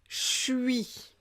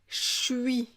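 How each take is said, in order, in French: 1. Les mots se fondent en une syllabe courte. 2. Les mots se fondent en une syllabe courte.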